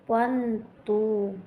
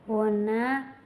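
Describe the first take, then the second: First: Each word is said fully and separately. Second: The words are run together into two syllables.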